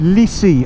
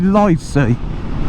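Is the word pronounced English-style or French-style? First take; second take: French; English. First: The word is said with a French accent. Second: The word is said with an English accent. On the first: "The French say Lycée, I think they pronounce it" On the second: "I say Lycée"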